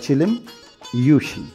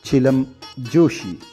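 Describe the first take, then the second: First: The second word begins with a y sound. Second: The second word begins with a j sound. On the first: The speaker calls it right. "the correct word or pronunciation is" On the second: The speaker calls it wrong. "incorrectly uh, read and write or pronounced as"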